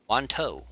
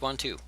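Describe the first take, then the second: First: The last syllable rhymes with toe. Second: The last syllable sounds like the number two. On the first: "As in big toe" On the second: "it's two"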